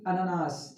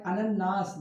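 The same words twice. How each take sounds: First: अननास with a single short न; teacher shows the wrong अननास; wrong pronunciation demo. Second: अनन्नास with a long doubled न, slow and clear; teacher models अनन्नास correctly; correct pronunciation. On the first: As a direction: say अननास clipped, the common mistake. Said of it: "ना कि". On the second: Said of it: "ना कि अननास". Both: Shown as a demonstration.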